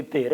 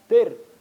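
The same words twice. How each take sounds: First: Said in the usual way. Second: Sharp loud call of the bare name Dir; rude call by name. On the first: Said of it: "Kalau di sini". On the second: Retold or imitated. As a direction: bark out "Dir" like a rude drunk in the street. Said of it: "manggil Syekh Abdul Qadir dengan panggilan". (panggilan "Dir" yang kasar dan keras)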